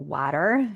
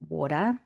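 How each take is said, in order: First: It is said in an American accent. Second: It is said in a non-American accent.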